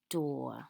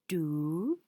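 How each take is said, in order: First: The vowel is an or sound. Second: The vowel is a long oo sound. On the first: The speaker calls it right. "we say this trigraph as or" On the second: The speaker calls it wrong. "it makes the long vowel sound oo"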